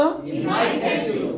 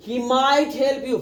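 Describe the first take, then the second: First: Quicker run-through of the same line; said fast. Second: Very slow, every word drawn out; slow demo. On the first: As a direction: rattle it off in one breath. (तेज़ी से एक साँस में बोलना) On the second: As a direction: spell it out slowly for the class. (बहुत धीरे-धीरे, हर शब्द खींचकर) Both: Shown as a demonstration. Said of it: "first बोलो".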